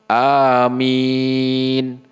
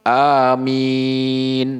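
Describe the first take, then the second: Both takes have the same delivery.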